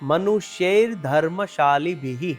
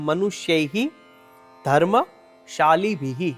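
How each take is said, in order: First: The words are joined; the first ends in r. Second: The words are separate; the first ends in h. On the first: The words are joined into one phrase. "આખો શબ્દ ભેગો થઈ" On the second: The words are read separately. "એમાં ત્રણ શબ્દ સમાયેલા છે"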